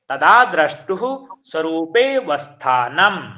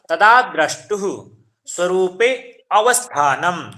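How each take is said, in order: First: The 'a' of avasthanam is dropped after svarupe. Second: The 'a' of avasthanam is clearly pronounced. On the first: The sutra is read as one joined whole. "जो आ का उच्चारण है वो थोड़ा क्या है, गुम हो जाएगा" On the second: The words are separated to explain the meaning. "संधि विच्छेद करके"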